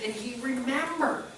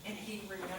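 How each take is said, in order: First: "and he remembered" said slowly, high, with weight on "remembered"; slow emphatic. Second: "And he remembered" repeated much softer, almost to himself; soft echo. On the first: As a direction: land "remembered" slowly and firmly. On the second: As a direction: let the repeat sink in quietly. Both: Shown as a demonstration.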